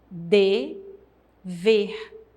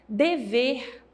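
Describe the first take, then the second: First: The word is said with a pause between syllables. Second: The word is said smoothly without a break.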